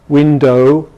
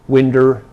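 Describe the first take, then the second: First: The final vowel is a full oh sound. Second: The final vowel is an r-colored er sound. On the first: "it doesn't happen in R P" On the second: "this schwa may be regularized to er"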